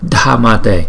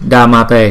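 First: The first consonant has extra breath after it. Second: The first consonant is a plain d sound. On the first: The speaker calls it right. "chỗ này có chữ H cho nên chúng ta đọc là Dhammate" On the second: The speaker calls it wrong. "chỗ này mà không có chữ H thì chúng ta đọc là Dhammate"

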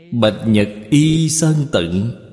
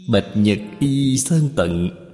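First: The poem line is read in Mandarin. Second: The poem line is read in Min Nan.

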